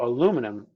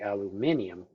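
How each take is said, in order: First: The word is said with four syllables. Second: The word is said with five syllables. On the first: This is the form the namer did not want. "aluminum was not the sound that they wanted" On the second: This form was chosen to sound like platinum. "They wanted it to be aluminium, so it sounded like platinum"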